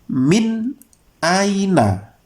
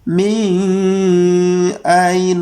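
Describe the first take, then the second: First: The n is clear, with no nasal hum. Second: The n is blurred and hard to make out. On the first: The speaker calls it right. "Seperti ini bacaannya. ... Jelas. Artinya tidak ada dengung" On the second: The speaker calls it wrong. "tidak boleh dibaca samar"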